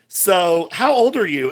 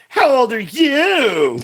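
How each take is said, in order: First: It is said in a plain voice. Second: It is said in a bratty, childlike voice.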